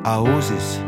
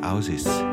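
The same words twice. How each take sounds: First: The word is said in a standard accent. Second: The word is said in a Bavarian accent.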